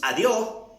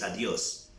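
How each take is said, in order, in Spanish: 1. Se dice con acento costeño ecuatoriano. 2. Se dice con acento serrano ecuatoriano. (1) "En la costa, ¿qué decimos?" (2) "En la sierra es adiós"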